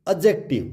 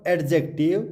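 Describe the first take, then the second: First: Adjective said as "a-jective"; silent D. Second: Adjective said as "ad-jective"; sounded D. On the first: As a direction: drop the D in adjective. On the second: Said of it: "Not adjective". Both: Shown as a demonstration.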